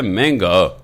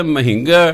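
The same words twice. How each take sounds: First: "ਮਹਿੰਗਾ" said as one smooth meṅgā, the h turned into tone on the first syllable; teacher's correct reading. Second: "ਮਹਿੰਗਾ" read letter by letter as ma-hin-ga, the h sounded out; child's wrong reading. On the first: Teacher corrects a child's reading, "ਮਹਿੰਗਾ" said smoothly as mengga. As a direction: say "ਮਹਿੰਗਾ" as mengga with a tonal dip, no separate h. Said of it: "teacher ਕਹਿੰਦਾ, "ਨਹੀਂ ਕਾਕਾ".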